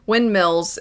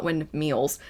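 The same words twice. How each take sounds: First: "windmills" with a short i in mills; corrected windmills. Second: "windmills" said as wind-MEELS; mispronounced windmills. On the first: Correcting their own slip, windmills with a short i. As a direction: say "windmills" as wind-MILLZ, short i. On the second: Correcting their own slip, windmills mispronounced as windmeals. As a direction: say "windmills" with a long ee, like meals. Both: Shown as a demonstration. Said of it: "not windmills".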